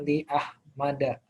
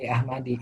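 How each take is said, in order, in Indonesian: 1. Vokal akhirnya bunyi 'a'. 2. Vokal akhirnya bunyi 'i'. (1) "kita sebutnya li Ahmada" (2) "bukan li Ahmadi"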